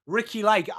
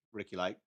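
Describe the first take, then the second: First: Said in the usual way. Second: "Ricki Lake" said low and very soft, almost under the breath; muttered aside. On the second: Real, not acted. Streamer repeating a chat name to himself, muttered. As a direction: drop the name away like a private aside.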